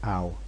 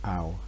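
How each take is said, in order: No difference in how they are said.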